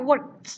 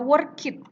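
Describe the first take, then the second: First: The ending is a plain 't' sound. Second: The ending is an extra syllable, 'id'. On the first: The speaker calls it right. "tapi bacanya work" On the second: The speaker calls it wrong. "jangan dibaca work it"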